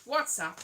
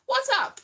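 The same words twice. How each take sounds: First: Said in the usual way. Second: "What's up?" squealed high and loud. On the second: Shown as a demonstration. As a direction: pitch "What's up?" way up and punch it.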